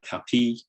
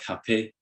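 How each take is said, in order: First: The final vowel is tense, like ee. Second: The final vowel is lax, like short i.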